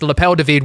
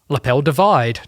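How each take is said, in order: First: The ending is said the French way, 'du vide'. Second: The ending sounds like the English word 'divide'. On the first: The speaker calls it right. "Nah, mm. It's Lapel de Vide" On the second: The speaker calls it wrong. "I've had so many"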